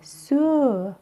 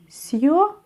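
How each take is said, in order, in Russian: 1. Гласный — передний огубленный звук 'ö'. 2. Гласный — задний звук 'yo'. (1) "а сё" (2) "не сё"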